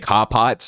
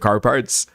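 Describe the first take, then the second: First: It is said in a Boston accent. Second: It is said in a general American accent.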